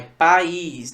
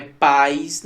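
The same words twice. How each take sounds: First: "país" as pa-ÍS, stress on the Í; "país" with A and Í kept apart; hiatus, stressed Í. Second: "país" said like "pais", stress on the A; "país" with A and I merged in a diphthong; one-syllable mispronunciation. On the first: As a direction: give "país" two syllables, landing on a long ÍS. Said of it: "É país, nação". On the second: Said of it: "Não é país". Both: Shown as a demonstration.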